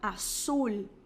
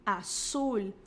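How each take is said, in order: No difference in how they are said.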